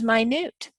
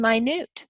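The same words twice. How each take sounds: First: It is said as the word for very small. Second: It is said as the word for very small.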